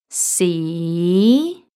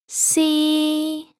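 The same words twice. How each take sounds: First: The pitch starts mid and rises. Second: The pitch stays high and level. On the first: "starts at the middle of your voice range and goes up" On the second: "let's try to put the first tone and the second tone together"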